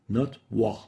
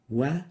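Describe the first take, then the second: First: The syllable is heavy and velarized. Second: The syllable is light, not velarized. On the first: The speaker calls it wrong. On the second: The speaker calls it right. "we don't velarize the waw"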